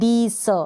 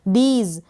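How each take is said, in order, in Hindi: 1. शब्द का अंत s ध्वनि से होता है। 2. शब्द का अंत z ध्वनि से होता है। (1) "आप इसको दीस ना पढ़े" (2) "इसको ज प्रोनाउंस किया जा रहा है"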